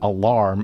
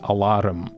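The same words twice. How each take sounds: First: It is said without a rolled R. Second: It is said Scottish-style with a rolled R.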